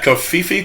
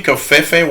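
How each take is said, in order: First: Kofifi with "ee" vowels; alternative pronunciation. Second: Kofefe with "ay" vowels; alternative pronunciation. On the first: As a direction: say Kofifi as koh-FEE-fee. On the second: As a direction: say Kofefe as koh-FAY-fay. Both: Shown as a demonstration. Tries two versions of a word.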